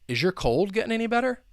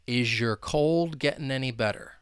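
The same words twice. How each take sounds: First: The sentence is spoken fast. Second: The sentence is spoken slowly. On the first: "let me say it at full speed" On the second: "So slowly"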